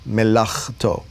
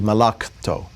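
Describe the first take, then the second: First: The middle consonant is a rough guttural sound. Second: The middle consonant is a plain k sound. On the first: The speaker calls it right. "getting those guttural sounds in there, as in the word melachto" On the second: The speaker calls it wrong. "as opposed to malakto. So, totally different word"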